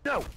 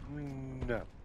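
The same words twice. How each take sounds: First: It is said firmly, with confidence. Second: It is said weakly, without confidence. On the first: The speaker calls it right. "I will say it with confidence" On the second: The speaker calls it wrong. "You have to say that with confidence"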